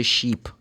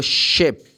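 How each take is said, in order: First: "sheep" with a long ee; the mistaken ee version, "sheep"; long E demo. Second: "ship" with a short, lax i; clearly short-vowelled "ship"; short I demo. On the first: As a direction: say "sheep" with a tense ee vowel. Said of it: "it's double E". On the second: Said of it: "people say sheep". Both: Shown as a demonstration.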